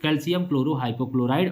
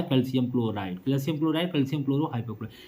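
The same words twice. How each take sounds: First: Said in the usual way. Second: Quick recap. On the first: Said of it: "और एक और नाम इसका क्या होता है?". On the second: Shown as a demonstration. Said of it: "दो नाम इसके होते हैं।".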